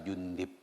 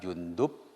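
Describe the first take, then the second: First: The vowel before the final b is i. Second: The vowel before the final b is u. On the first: "ada tiga wajah membacanya" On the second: "ada tiga wajah membacanya"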